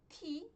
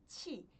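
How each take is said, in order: First: The syllable starts with an aspirated t sound. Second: The syllable starts with an aspirated ch sound. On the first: The speaker calls it wrong. "ao invés de pronunciar como ti" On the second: The speaker calls it right. "eu pronuncio como ti"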